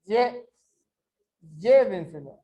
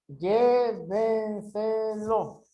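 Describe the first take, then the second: First: "llévenselo" with a loud LLÉ, the rest quick and falling; stress on first syllable. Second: "Llévenselo" very slow, each syllable held. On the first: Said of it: "onde está o som mais forte". ("llévenselo" com o LLÉ bem forte) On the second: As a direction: stretch every syllable of "Llévenselo". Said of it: "separa em sílabas". ("Llévenselo" sílaba por sílaba, bem devagar) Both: Shown as a demonstration.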